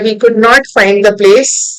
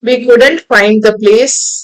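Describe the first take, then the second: First: 'Could not' is said as two full words. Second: 'Could not' is contracted into one word.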